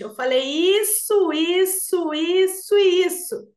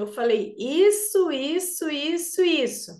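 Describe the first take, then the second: First: It is said louder and more slowly, with pauses. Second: It is said at normal volume and pace.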